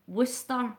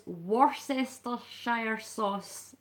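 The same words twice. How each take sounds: First: "Worcestershire" shortened to wuss-ter, the middle swallowed; "Worcestershire" begun as a compact wuss-ter; spoken pronunciation. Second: "Worcestershire" sounded out as it's written, wor-sess-ter-shire; "Worcestershire" read literally and very slowly, every syllable voiced; spelling pronunciation. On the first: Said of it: "You would say". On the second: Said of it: "the way it's worded is". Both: Shown as a demonstration.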